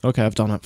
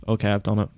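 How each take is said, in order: First: Breathless whisper of disbelief; shocked whisper. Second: Said in the usual way. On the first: Real, not acted. Streamer whispering after confirming risky transfers. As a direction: whisper it like you can't believe it.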